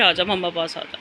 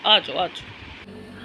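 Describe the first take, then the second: First: Said in the usual way. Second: Slow, soft whispered coaxing. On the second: Real, not acted. Mother whispering slowly to coax her baby into her lap.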